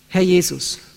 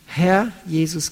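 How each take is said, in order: First: The words run together quickly without a pause. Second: There is a pause after the first word. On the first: The title is passed over without thought. The speaker calls it wrong. "Das sagen wir oft zu schnell" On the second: The speaker reflects on whether he is truly Lord. The speaker calls it right. "Herr, dann Pause"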